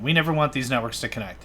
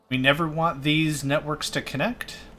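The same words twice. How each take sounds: First: It ends with a falling, statement tune. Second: It ends with a rising, question-like tune.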